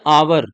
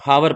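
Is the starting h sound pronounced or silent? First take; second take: silent; pronounced. First: The word begins directly with a vowel sound. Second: The word begins with an audible h sound. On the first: The speaker calls it right. "An आवर" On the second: The speaker calls it wrong. "हमारे यहाँ pronunciation ही गलत होता, हावर पढ़ देते हैं"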